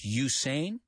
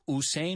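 First: The name begins with a 'you' sound. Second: The name begins with a plain 'oo' sound. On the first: The speaker calls it right. "decimos Usain, como si fuera una U, tú" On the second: The speaker calls it wrong. "En inglés no decimos Usain"

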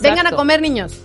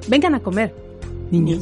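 First: It runs on with no pause before niños. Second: There is a clear pause before niños.

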